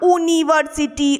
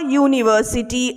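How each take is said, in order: First: The word starts with a plain vowel. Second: The word starts with a 'y' sound. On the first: The speaker calls it wrong. "আমরা কিন্তু বলি না" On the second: The speaker calls it right. "যখন ইউটা বলছো তখন একটা ওয়াই ইউ ওয়াই আসছে আগে"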